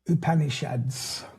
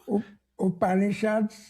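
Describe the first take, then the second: First: It is said in the speaker's ordinary accent. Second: It is said in a put-on Indian accent. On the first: The speaker calls it wrong. "I'm probably pronouncing it really badly" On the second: The speaker calls it right. "That's an Indian accent"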